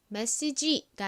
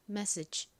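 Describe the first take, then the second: First: It ends with a full, clear 'ji' syllable. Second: It ends with a weak, breathy final sound. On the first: The speaker calls it wrong. "메시지가 아니라" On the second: The speaker calls it right. "끝에 이 G, E 부분이 바람 빠지듯이 약하게 소리가 나요"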